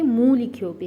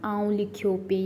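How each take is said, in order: First: मूं said louder with a falling tune; stress on मूं. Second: Said in the usual way. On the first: Shown as a demonstration. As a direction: hit मूं firmly, the right Sindhi form. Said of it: "तो यहाँ पर हम कहेंगे". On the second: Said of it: "तो वो थोड़ा ना, थोड़ा मतलब कि वो नहीं यूज़ होता".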